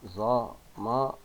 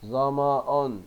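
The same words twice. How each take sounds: First: "ظمأ" slowly split as "za... ma... un"; slow syllable-by-syllable ظمأ with a voiced -un; tanween damma ending. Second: "ظمأ" as joined "za-ma-un"; louder ظمأ in one run, ending -un; tanween damma ending. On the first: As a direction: break ظمأ into separate syllables. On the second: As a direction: pronounce ظمأ connected, nunation voiced. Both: Shown as a demonstration. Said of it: "الكلمات التالية بالضم".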